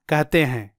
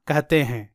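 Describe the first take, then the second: The two takes are said the same way.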